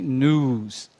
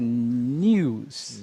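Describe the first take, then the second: First: It is said with a plain 'noo' sound, American style. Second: It is said with a 'nyoo' sound, British style. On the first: "American English a gente tem news" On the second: "Em British English, como as pessoas pronunciam normalmente? Eles colocam o ni"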